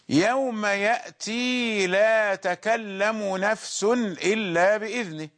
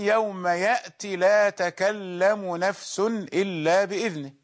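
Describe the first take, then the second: First: The final 'ee' vowel of ya'ti is pronounced. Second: The final 'ee' vowel of ya'ti is dropped.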